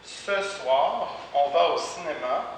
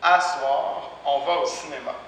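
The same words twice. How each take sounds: First: Said in the usual way. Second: "À soir" with à replacing ce; spoken à soir. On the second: Shown as a demonstration. Teacher models spoken Quebec "À soir". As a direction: open à in "À soir". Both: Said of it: "Même chose ici".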